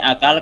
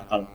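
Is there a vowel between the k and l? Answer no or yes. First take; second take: yes; no. First: A vowel is inserted between k and l. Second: No vowel is inserted between k and l. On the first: This is the Indonesian form. "Kalau di sini akal" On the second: This is the Arabic form. "kalau di sana akal"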